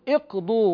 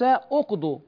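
First: The opening vowel is an 'i' sound. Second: The opening vowel is a 'u' sound. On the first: The speaker calls it right. "نقول اقضوا" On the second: The speaker calls it wrong. "وليس اقضوا، لأن الضم في الضاد عارض"

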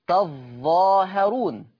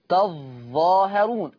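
The two takes are said the same way.

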